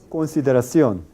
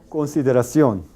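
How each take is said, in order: Both takes have the same delivery.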